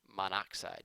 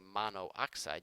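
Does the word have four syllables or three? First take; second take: three; four. First: The o sounds merge into one, giving three syllables. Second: Both o sounds are kept, giving four syllables. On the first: The speaker calls it right. "you just say" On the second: The speaker calls it wrong. "you don't say"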